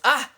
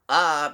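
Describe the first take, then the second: First: A short, clipped, surprised ah sound. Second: A plain, neutral ah sound.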